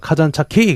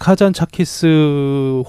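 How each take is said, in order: First: The name ends without an s sound. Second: The name ends with an s sound. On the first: This is how the local villagers say the name. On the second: This is how a visitor says the name.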